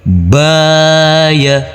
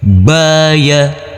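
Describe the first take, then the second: First: The first vowel is held long. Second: Both vowels are short. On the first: "Di sini huruf ba kita baca panjang dengan panjang dua harokat" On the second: "Di sini tidak ada yang kita baca panjang dengan panjang dua harokat"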